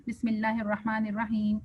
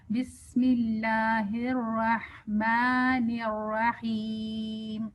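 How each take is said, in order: First: بسم اللہ with the alif of اللہ cut short; wrong recitation. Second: Very slow, with the آ in اللہ and الرحمن stretched two beats; correct long vowels. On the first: Teacher showing the wrong, clipped vowels. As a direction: rush the long vowels in اللہ and الرحمن. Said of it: "جب غلط پڑھتے ہیں تو ہم کہتے ہیں". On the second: Teacher showing students the stretched alif, very slow. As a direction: draw out each long vowel. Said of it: "دو حرکت تک کھینچیں". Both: Shown as a demonstration.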